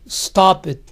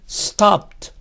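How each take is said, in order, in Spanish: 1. La terminación se pronuncia como una sílaba extra. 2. La terminación es una T simple, sin vocal. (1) "Nada de" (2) "Tiene que ser"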